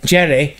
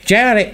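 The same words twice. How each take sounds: First: Said in the usual way. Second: Higher-pitched mock Irish accent; uncertain Irish accent. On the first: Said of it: "The Scottish guy". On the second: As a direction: attempt a wobbly Irish-Scottish accent. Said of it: "I don't know what accent is".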